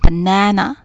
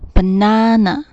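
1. 中间的元音是短的扁平 'a'。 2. 中间的元音是长的开口 'ah'。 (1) "在美国的口音里面，它会把R 这个音发成A" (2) "在英式的口音里面发的是banana，也就是说第2 个A 发的是R 的音"

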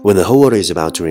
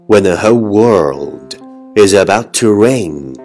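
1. 这句话一口气很快地说出。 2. 这句话以正常、平稳的速度说出。

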